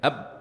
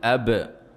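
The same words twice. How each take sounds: First: The final b is held closed with no release. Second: The final b is released with a slight bounce. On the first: The speaker calls it wrong. "بهذه الصورة لا يتبين الحرف" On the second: The speaker calls it right. "لا بد أن تقول أب، تجعل بعد هذا الانغلاق ... لابد أن تفتح مرة أخرى"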